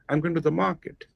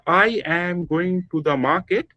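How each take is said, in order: First: Only I, go and mar are stressed. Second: Every syllable gets the same equal stress. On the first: The speaker calls it right. "I, go, and ma. These are the syllables that are prominent" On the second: The speaker calls it wrong. "it is spoken the Bengali way"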